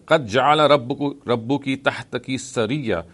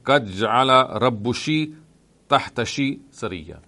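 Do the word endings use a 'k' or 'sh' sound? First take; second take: k; sh. First: The endings are said with a 'k' sound. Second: The endings are said with a 'sh' sound.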